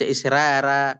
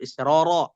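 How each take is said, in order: First: The r is pronounced thin and light. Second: The r is pronounced thick and heavy. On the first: The speaker calls it wrong. "tidak dibaca tarkik, tidak dibaca israra" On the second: The speaker calls it right. "tapi tetap israra"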